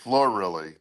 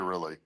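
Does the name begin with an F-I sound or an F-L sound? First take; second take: F-L; F-I. First: The name begins with an F-L sound. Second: The name begins with an F-I sound. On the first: The speaker calls it wrong. "There's no L in the beginning" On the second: The speaker calls it right.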